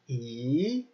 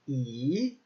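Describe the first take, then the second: First: The pitch rises from middle to high. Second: The pitch rises from middle to high.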